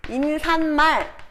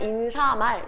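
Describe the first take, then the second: First: An extra n sound is added before mal. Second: No extra n sound is added before mal. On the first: The speaker calls it wrong. "얘 발음이 인산말 이렇게 뭐야? 한자어 대 수우리말 니은 첨가라고 보면 안 된다고요" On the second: The speaker calls it right. "얘는 그냥 인사말 이게 표준 발음이에요"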